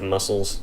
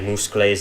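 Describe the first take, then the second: First: The word is pronounced in the standard way. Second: The word is pronounced in an odd way. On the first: The speaker calls it right. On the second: The speaker calls it wrong.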